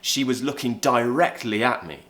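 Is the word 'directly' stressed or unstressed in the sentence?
stressed. The word 'directly' is clearly stressed. "So I could stress the word, if the word was stressed in my sentence"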